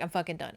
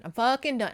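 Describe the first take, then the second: First: Said in the usual way. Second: "fucking" hit higher and louder; "fucking" thrown out hard, voice raised; emphatic repeat. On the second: Retold or imitated. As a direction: punch "fucking" as if truly finished. Repeated harder, fed up.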